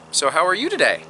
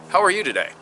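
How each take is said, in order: First: "today" swung up high; upswing intonation. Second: "are" stressed, then falling away on "you today"; downswing intonation. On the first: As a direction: lift the pitch through "you today". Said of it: "same sentence, different intonation". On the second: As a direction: let "you today" drop after "are". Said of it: "different intonation". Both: Shown as a demonstration.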